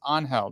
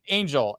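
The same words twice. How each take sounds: First: The name is said with a Spanish reading. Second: The name is said with an English reading. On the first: It is how the person actually says the name. The speaker calls it right. "no no no his name's Angel. That's how you pronounce it" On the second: It is read off the spelling by people who don't know. The speaker calls it wrong. "you see his name you're like Angel"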